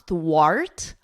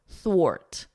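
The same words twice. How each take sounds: First: The vowel sounds like the one in 'art'. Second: The vowel sounds like the one in 'or'. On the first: The speaker calls it wrong. "It's not thwart, art, like the R in cart" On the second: The speaker calls it right. "It's a or, thwart, ort, thwart"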